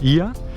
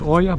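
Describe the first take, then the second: First: The name begins with an 'ee' vowel sound. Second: The name begins with an 'oh' vowel sound. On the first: The speaker calls it right. "O and E in Greek, you pronounce it E" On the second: The speaker calls it wrong. "it's not Oya"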